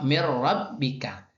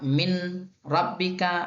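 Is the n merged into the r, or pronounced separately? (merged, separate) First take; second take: merged; separate. First: The n merges fully into the r sound. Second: The n is pronounced separately before the r. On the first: The speaker calls it right. "Contoh mir rabbika" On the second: The speaker calls it wrong. "Tidak boleh dibaca min rabbika"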